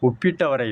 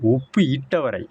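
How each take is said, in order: First: Uppu and itta merge into one word, uppitta. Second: Uppu and itta are said as separate words. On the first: The speaker calls it wrong. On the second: The speaker calls it right.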